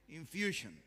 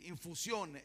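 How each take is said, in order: First: It is pronounced with English sounds. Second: It is pronounced with Spanish sounds. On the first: It is the ministry's actual name. The speaker calls it right. "mejor lo decimos en inglés" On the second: It sounds like a name for tea. The speaker calls it wrong. "es infusión en, en castellano"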